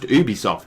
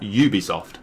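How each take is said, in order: First: The name is pronounced with French sounds. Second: The name is pronounced with English sounds. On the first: The speaker calls it right. "they're French. It's pronounced Ubisoft" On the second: The speaker calls it wrong. "not Ubisoft"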